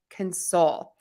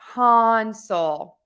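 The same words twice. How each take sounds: First: The stress is on the second syllable. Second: The stress is on the first syllable. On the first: "when we go to stress syllable number two in those words, we are going to make syllable number one that schwa" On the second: "when we stress syllable number one, we're going to say that vowel, that ah vowel"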